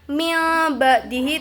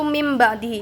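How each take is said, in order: First: The first word ends with an l sound. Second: The first word ends with an m sound. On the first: The speaker calls it wrong. "Bukan mil ba'dihi itu salah" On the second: The speaker calls it right. "Jadi cara bacanya itu mim ba'dihi"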